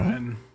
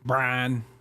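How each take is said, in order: First: It is said in his usual accent. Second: It is said in a Georgia Southern accent.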